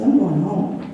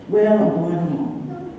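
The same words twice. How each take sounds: First: Said in the usual way. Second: Slow, drawn-out insistence; insistent. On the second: Retold or imitated. Patient overruling a friend's objection, slowly insistent. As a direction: stretch it out stubbornly, standing your ground.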